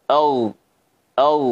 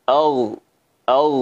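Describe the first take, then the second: No difference in how they are said.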